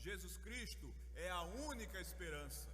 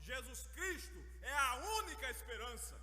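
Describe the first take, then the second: First: It is said loudly. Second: It is shouted with great force. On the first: It is spoken to people who are far away. "agora a gente vai falar mais alto" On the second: It is spoken in the face of people's despair. "gritar com bastante força"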